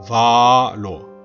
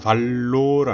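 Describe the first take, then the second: First: A long first vowel, then a single L. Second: The middle consonant is a doubled L. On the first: The speaker calls it right. "앞에 바를 길게 하고 그리고 살짝 끊었다가 뒤에 로를 붙여보세요" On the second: The speaker calls it wrong. "알로는 L 두 개 발음이고요"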